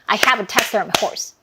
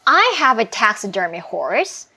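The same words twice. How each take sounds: First: It is spoken flatly, like a machine. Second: It is spoken with feeling, like in conversation. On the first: The speaker calls it wrong. "이렇게 하면 약간 기계스럽잖아요" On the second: The speaker calls it right. "감정을 넣어줘야"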